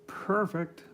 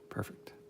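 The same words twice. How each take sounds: First: It imitates the Street Fighter Two announcer. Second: It is said in a normal speaking voice.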